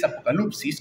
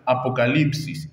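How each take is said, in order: First: "apocalipsis" said as Greek apokalupsis, oo in the third syllable; Greek pronunciation. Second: "apocalipsis" in ordinary Spanish, a-po-ca-LIP-sis; Spanish pronunciation. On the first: Preacher repeating the Greek "apocalipsis" as apokalupsis to the congregation. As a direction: give "apocalipsis" its Greek u sound, apo-ka-LUP-sis. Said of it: "La palabra griega es". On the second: Preacher contrasting the Spanish "apocalipsis" with the Greek. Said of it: "donde tenemos la palabra". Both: Shown as a demonstration.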